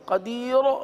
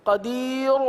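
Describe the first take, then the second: The two takes are said the same way.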